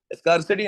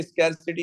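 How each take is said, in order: First: स्कार्सिटी with an open "ah", like "scar"; wrong "skar" pronunciation. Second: स्कैरसिटी with "skair", like "scare"; corrected "skair" pronunciation. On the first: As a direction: say स्कार्सिटी starting "skaar". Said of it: "नहीं है ये". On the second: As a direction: say स्कैरसिटी with a fronted first vowel. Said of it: "स्कैरसिटी होती है आपके पास". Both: Shown as a demonstration.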